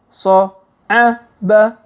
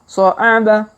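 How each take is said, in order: First: The syllables are read slowly. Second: The syllables are read quickly. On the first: "Kita baca pelan-pelan" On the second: "Kalau dipercepat"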